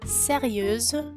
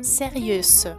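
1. A última consoante é um som de z vibrado. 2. A última consoante é um som de s sibilante. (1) "Dizemos sérieuse" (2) "e não sérieuse"

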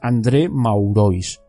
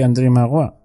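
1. El nombre se lee con pronunciación española. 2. El nombre se dice con pronunciación francesa. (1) "así pronunciado en castellano es André Maurois" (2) "Que bien me sale el francés"

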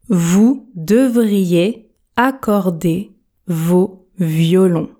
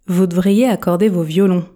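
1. La phrase est prononcée très lentement. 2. La phrase est prononcée rapidement, avec une voyelle escamotée. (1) "Version tortue" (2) "Version express"

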